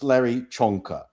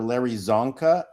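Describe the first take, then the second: First: The surname begins with a ch sound. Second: The surname begins with a z sound. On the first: This is the original Hungarian way. The speaker calls it right. "that's Hungarian. It's Larry Chonka" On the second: This is how Americans say the name. The speaker calls it wrong. "do you Americans remember"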